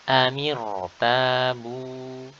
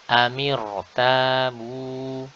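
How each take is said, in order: Both takes have the same delivery.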